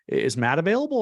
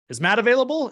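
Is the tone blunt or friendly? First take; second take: friendly; blunt. First: The tone is warm and friendly. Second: The tone is blunt and coarse. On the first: The listener is much more likely to answer. The speaker calls it right. "If I say it very friendly" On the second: It makes the listener feel uncomfortable. The speaker calls it wrong. "If I'm more direct and coarse"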